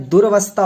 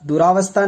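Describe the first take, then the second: First: दुर्वस्था as "dur-vastha"; दुर्वस्था with no vowel after R; corrected form. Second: दुरावस्था as "du-raa-vastha"; दुरावस्था with an open "raa"; wrong long A. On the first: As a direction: run the R straight into V in दुर्वस्था. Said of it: "दुर्वस्था होता है". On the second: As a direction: put a long AA after R in दुरावस्था. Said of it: "दुरावस्था नहीं होता है". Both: Shown as a demonstration.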